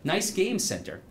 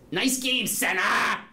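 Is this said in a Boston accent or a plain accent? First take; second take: plain; Boston. First: It is said without a Boston accent. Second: It is said with a strong Boston accent.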